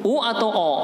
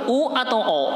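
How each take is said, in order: Both takes have the same delivery.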